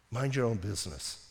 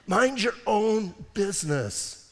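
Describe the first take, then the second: First: "Mind your own business" soft and low, almost to yourself; quiet aside. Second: "Mind your own business" slow, with weight on "Mind"; slow emphatic. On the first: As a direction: drop it down to a murmur. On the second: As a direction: lean on "Mind" and take it slow. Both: Shown as a demonstration. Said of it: "repeated as a refrain".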